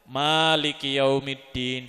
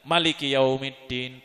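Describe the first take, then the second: First: The first vowel of Maliki is long. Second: The first vowel of Maliki is short.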